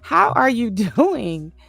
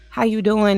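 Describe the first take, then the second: First: It is asked sincerely, wanting a real answer. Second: It is asked casually, not wanting an answer.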